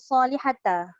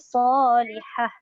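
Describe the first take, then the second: First: The word ends with a voiced ta syllable. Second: The word ends with a soft h sound. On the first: The speaker calls it wrong. "dia tak boleh bunyi solihata" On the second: The speaker calls it right. "Dia kena matikan ta marbutoh tu jadi solihah"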